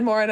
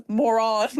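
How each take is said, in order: First: Said in the usual way. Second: "moron" with a drawn-out second syllable, "more-ON"; pedantically overpronounce "moron" as "more-on"; "moron" said as two weighty syllables, mock-correcting; mock correction. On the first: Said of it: "I was joking that, like, you said". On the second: Shown as a demonstration. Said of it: "I'm like, No, it's".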